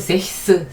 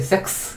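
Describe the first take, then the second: First: The middle has a breathy 'h'-like sound. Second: The middle has a 'k' sound before the s. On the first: The speaker calls it wrong. "굉장히 발음하기가 어렵고" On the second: The speaker calls it right. "아주 자연스럽게 섹스 이렇게 되거든요"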